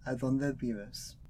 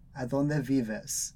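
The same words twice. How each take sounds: First: The v in vives sounds like a b. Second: The v in vives sounds like an English v. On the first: "Esta pronunciación es la más común en la fonética de muchos dialectos de español" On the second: "los chilenos pronuncian la letra B de vaca como inglés, con un V"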